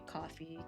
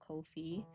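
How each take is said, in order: First: The first syllable sounds like 'cough'. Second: The first syllable sounds like 'go'. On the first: It makes a pun on the drink. The speaker calls it wrong. "I used to say coffee because that's kind of the pun" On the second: It echoes the phrase about charging no fees. The speaker calls it right. "intended to be pronounced the way you pronounce no fee"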